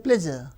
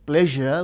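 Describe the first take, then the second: First: The middle consonant is a z sound. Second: The middle consonant is a zh sound. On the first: "we replace with z" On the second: "we don't say"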